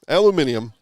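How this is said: It is said the British way, five syllables.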